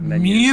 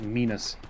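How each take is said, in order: First: The first vowel is short, as in 'men'. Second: The first vowel is long, as in 'mean'. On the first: This is the usual pronunciation of the word. The speaker calls it right. "instead of menus" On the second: This is how the word was misread from print. The speaker calls it wrong. "It was Minus instead of menus"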